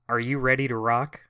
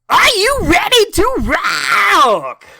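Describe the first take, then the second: First: It is said calmly, with moderate energy. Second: It is shouted loudly, with high energy.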